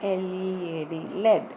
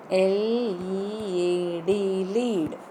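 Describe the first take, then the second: First: Spelled out, then "lead" as led; letters first, then "lead" rhyming with bed. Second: Spelled out slowly, then "lead" as leed. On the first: Teacher gives same word in different context, short-e "lead". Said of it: "Same word in different co". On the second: Teacher spells slowly for class, long-ee "lead". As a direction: draw out the letters, then "lead" rhyming with need. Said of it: "I pronounce the word lead as". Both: Shown as a demonstration.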